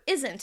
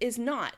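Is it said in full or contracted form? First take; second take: contracted; full. First: It is contracted into one word. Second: It is said in full as two words.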